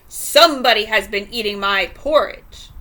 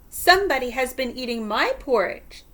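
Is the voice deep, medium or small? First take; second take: deep; medium. First: It is said in a great, rough, gruff voice. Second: It is said in a middle-sized voice.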